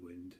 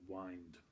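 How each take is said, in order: First: The word rhymes with 'tinned', a short vowel. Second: The word rhymes with 'kind', a long vowel. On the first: The speaker calls it wrong. "it's not Hallow the Wind" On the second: The speaker calls it right. "it's Hallow the Wind"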